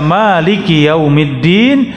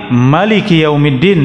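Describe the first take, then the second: First: The first vowel of Maliki is drawn out long. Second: The first vowel of Maliki is kept short. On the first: "bisa dibaca panjang" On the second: "dengan ma-nya pendek"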